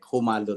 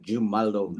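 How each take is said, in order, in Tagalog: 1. Nagsisimula ang "Jumalon" sa tunog na H. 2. Nagsisimula ang "Jumalon" sa tunog na J. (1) "kung sa ating, ah, dialect" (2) "sa English ay magiging jumalon"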